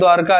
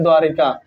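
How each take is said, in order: First: The word has no vowel between r and k. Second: The word has an 'i' vowel between r and k. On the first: The speaker calls it right. "बोलते भी हैं द्वारका ही" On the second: The speaker calls it wrong. "आप लोग गलत बोल देते हैं द्वारिका"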